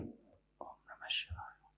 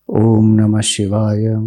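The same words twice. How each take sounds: First: It is said very softly, barely audible. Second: It is said fairly loudly.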